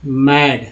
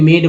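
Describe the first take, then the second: First: "मैड" with an open 'ae' vowel; open short A sound. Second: "मेड" with a long 'ay' vowel; long AY sound. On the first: Teacher sounding out an example word for learners, open A in "मैड". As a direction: say "मैड" with the A as in cat. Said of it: "ए बोल रहे हैं". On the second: Teacher showing what a final E does, long AY in "मेड". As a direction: say "मेड" to rhyme with paid. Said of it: "यानी कि उच्चारण ए हो गया". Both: Shown as a demonstration.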